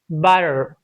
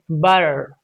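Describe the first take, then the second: The two takes are said the same way.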